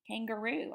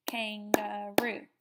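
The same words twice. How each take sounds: First: Said in the usual way. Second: Kangaroo said slowly as kan-ga-roo; teacher stretching kangaroo into three beats; syllables stretched out. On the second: Shown as a demonstration. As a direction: drag kangaroo out, one beat per syllable. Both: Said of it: "I see on the three syllable".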